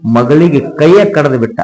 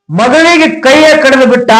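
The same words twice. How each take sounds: First: Said in the usual way. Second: ಮಗಳಿಗೆ cried out much higher, in anguish; anguished cry. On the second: A narrator's reading. Preacher crying out the father's cruel deed, high anguished wail. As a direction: wail the line out high, as if it breaks your heart.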